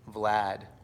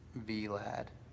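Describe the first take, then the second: First: The name is said as one syllable. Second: The name is split into two syllables. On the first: The speaker calls it right. "It's pronounced like Brad" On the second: The speaker calls it wrong. "but V Lad"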